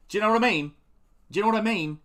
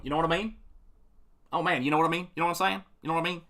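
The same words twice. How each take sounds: First: Broad northern English "Do you know what I mean", pitched up and loud; northern English accent. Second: Casual southern English "You know what I mean"; southern English accent. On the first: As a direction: mimic a Yorkshire lad asking it. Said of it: "people from the north in England going". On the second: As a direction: mimic a London bloke asking it. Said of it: "people from the south going". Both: Retold or imitated.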